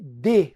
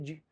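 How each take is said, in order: First: The word is strong and fully stressed. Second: The word is weak, its vowel nearly swallowed. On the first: "Agora esse D é forte. Ele é tônico" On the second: "esse D, ele é bem fraco... quase não é pronunciado"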